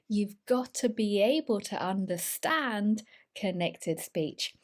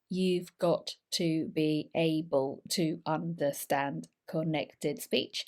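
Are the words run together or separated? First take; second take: run together; separated. First: The words are squished together in fluent speech. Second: Each word is said separately, like a robot. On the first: The speaker calls it right. "When we talk fluently, we connect things together" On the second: The speaker calls it wrong. "we don't talk like robots. We don't isolate every single word"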